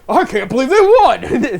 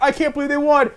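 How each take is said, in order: First: High, loud, laughing through it; can't stop laughing at the win; laughing disbelief. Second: Excited disbelief. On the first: Twenty years later, laughing disbelief. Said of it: "Twenty years later". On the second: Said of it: "I went". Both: Retold or imitated.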